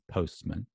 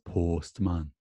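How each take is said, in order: First: It is said in a standard British accent. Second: It is said in a South Wales valleys accent. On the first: "standard U K is postman" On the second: "the Rhondda Valley is postman"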